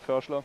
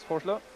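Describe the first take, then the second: First: The name is said the German way. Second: The name is said the English way. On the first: The speaker calls it right. "to say it correct" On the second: The speaker calls it wrong. "your way of pronouncing it in the English language"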